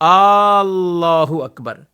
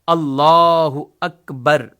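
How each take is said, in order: First: The vowels are stretched and drawn out. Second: The opening vowel is kept short. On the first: The speaker calls it wrong. "यानी इनको खींचते रहते हैं" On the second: The speaker calls it right. "अल्लाह के शुरू के अलिफ पर वो फकत जबर है"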